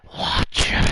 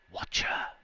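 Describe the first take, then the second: First: It is said with a rasping, gusty breath. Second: It is said plainly, without a gusty breath.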